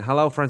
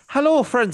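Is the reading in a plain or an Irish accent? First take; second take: plain; Irish. First: It is read in the speaker's plain accent. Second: It is read in a put-on Irish accent.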